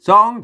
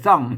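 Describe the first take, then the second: First: The syllable is said with the rising tone. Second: The syllable is said with the tho tone. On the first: "มันเสียงจัตวาเนาะ" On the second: "ซ่องเสียงโท"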